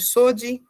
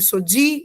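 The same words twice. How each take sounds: First: The stress is on the first syllable. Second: The stress is on the last syllable. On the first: The speaker calls it wrong. "e não de Sodi" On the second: The speaker calls it right. "os nomes sempre vão ser mais fortes na última sílaba"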